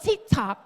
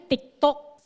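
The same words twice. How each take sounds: First: It is said with a foreign pronunciation. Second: It is said with a Filipino pronunciation. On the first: This is how it is said in the speaker's current country. "Pero pag dito" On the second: This is how it is said in the Philippines. "Sa Pilipinas kasi TikTok"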